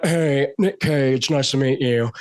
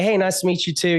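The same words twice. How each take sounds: First: Slow, drawn-out star introduction; imitated movie-star drawl; Nicolas Cage. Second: Said in the usual way. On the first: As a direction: stretch it out in an eccentric drawl. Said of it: "he's like". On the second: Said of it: "And I was like".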